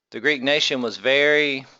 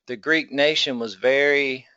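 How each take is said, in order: Both takes have the same delivery.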